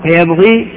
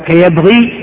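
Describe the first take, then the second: No difference in how they are said.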